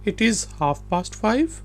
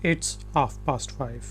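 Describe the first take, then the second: First: "It is" is said as two full words. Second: "It is" is contracted into one syllable. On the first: "ये इट इज की short form है।" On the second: "ये इट इज की short form है।"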